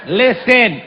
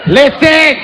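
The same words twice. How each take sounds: First: Said in the usual way. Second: Higher, louder bark of listen laughing through; loud mock call. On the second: Rafting guide demanding attention, loud mock call. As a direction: snap the word listen loud to grab them.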